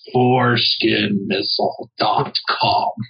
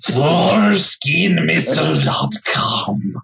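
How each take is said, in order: First: It is said slowly and clearly, not creepy. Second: It is said in a creepy tone.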